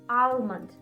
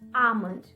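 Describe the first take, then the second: First: The L sound is pronounced. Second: The L sound is silent. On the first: The speaker calls it wrong. "I have heard that some people call it almond" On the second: The speaker calls it right. "drop the L sound and say it like"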